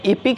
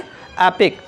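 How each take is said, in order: First: The first vowel sounds like 'ih'. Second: The first vowel sounds like 'eh'. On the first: The speaker calls it wrong. "इपिक नहीं पढ़ा जाएगा" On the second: The speaker calls it right. "इस ई का उच्चारण ए के समान होता है"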